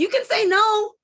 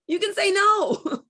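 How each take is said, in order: First: "can" pushed up high and loud in "You can say no"; stress on can. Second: Slow, with "no" landing firm and falling; stress on no. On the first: Coach insisting to a parent that "can" is the key word. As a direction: lean hard on the word "can". Coach urging listener to refuse. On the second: Coach repeating to a parent, "no" driven home and falling. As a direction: slowly, settle the weight on "no". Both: Shown as a demonstration.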